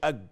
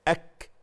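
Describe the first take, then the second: First: The consonant is a voiced g-like sound. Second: The consonant is a breathy, voiceless k sound. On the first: The speaker calls it wrong. "ما نقولش أج" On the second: The speaker calls it right. "أك ما نقولش أج"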